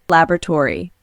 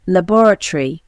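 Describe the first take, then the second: First: "Laboratory" American, LAB-ra-tory, stress first; American accent: stress LAB in "Laboratory"; American accent demo. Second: British accent "Laboratory" as la-BOR-a-tree; British accent: stress BOR in "Laboratory"; British accent demo. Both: Shown as a demonstration. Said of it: "Pronunciation of particular words".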